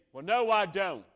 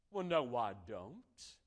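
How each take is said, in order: First: Louder, higher snapping retort; retaliating denial. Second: Mild denial. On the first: Church member hitting back at the pastor, loud. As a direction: fire back, defensive and sharp. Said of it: "you could retaliate and say". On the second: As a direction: calmly brush off the charge. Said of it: "And you could say". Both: Pretend.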